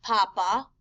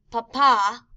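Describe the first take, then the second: First: Papa stressed on the first A, PA-pa; stress on first syllable. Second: Papa with the final A accented, pa-PA, louder; stress on last syllable. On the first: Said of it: "you can hear the difference between". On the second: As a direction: punch the second syllable of papa, slowly. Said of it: "P A P A with an accent". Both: Shown as a demonstration.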